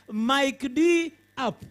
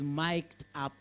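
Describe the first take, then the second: First: It is said as 'Mike', then the letter D. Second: It is said as one syllable, 'mikt'. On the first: The speaker calls it wrong. "don't go there and start saying" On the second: The speaker calls it right. "It is mic'd up"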